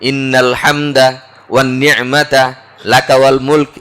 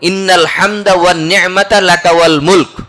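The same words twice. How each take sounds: First: The phrase is broken up by several short pauses. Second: The phrase flows in one breath without pauses. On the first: The speaker calls it wrong. "এইভাবে গদ বেঁধে একটু থেমে থেমে পড়ি।" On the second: The speaker calls it right. "এই পর্যন্ত এক নিঃশ্বাসে।"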